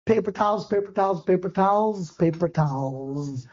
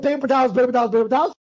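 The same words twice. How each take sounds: First: Fading as the stomach drops; sinking dismay. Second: Lively, assured listing of the decoy; confident repetition. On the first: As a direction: repeat it lower and softer, slowing to a crawl at the end. My stomach dropped. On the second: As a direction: run the repeats together, sure of the trick. Boasting of his decoy trick. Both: Retold or imitated.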